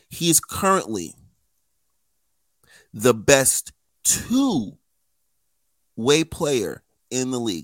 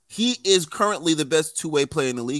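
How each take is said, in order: First: It is spoken slowly and deliberately. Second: It is spoken at a normal, quicker pace.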